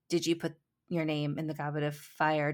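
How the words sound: It is said in a calm, quiet manner.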